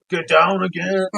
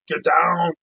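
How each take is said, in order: First: Louder mock action-hero bark; hammed-up action hero shouting the order once more; Arnold Schwarzenegger. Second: Loud, mock action-hero bark; hammed-up action hero yelling an order; Arnold Schwarzenegger. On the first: Comedian repeats Arnold's order, louder hammed-up bark. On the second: Comedian mimics Arnold barking an order, loud mock action-hero voice. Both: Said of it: "Arnold Schwarzenegger".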